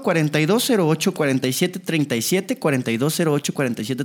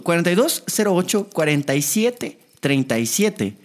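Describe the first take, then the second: First: Quick, run-together number reading; rapid-fire phone number. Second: Measured number reading, group by group; slowed-down phone number. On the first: Radio host giving listeners the number, rapid-fire. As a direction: rattle the digits off fast. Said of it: "Perdón porque lo digo rápido". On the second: Repeats number slowly for a listener. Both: Real, not acted.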